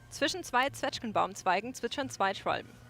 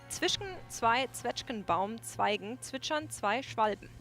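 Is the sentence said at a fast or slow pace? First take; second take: fast; slow. First: The sentence is said at a fast pace. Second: The sentence is said at a slow pace.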